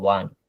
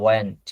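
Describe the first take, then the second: First: Said in a British accent, sounding like 'want'. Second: Said in an American accent, sounding like 'went'. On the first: "ব্রিটিশরা উচ্চারণ করে ওয়ান্ট" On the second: "উচ্চারণটা হবে you were, you ওয়েন্ট।"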